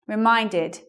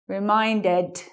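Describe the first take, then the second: First: The ending is pronounced like a light 'id'. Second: The ending is pronounced like a full 'ed'. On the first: The speaker calls it right. "makes an I D sound" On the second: The speaker calls it wrong. "E D word endings sound like this"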